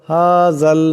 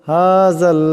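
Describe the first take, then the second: The two takes are said the same way.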